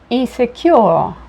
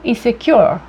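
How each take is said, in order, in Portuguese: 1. Ela é dita com sotaque britânico. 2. Ela é dita com sotaque americano. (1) "no britânico eles, a tendência é pronunciar o R com uma ascendência para o A" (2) "no americano"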